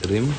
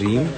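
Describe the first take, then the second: First: The vowel is a short i sound. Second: The vowel is a long ee sound. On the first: The speaker calls it wrong. "Not रिम। अगर रिम होता तो R I M होता ना।" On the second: The speaker calls it right. "Pronounce that as रीम"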